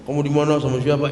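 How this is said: It is said in an angry, emotional tone.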